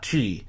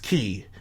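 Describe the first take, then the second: First: The word starts with a ch sound. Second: The word starts with a k sound. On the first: The speaker calls it wrong. "not chi" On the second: The speaker calls it right. "but pronounced key"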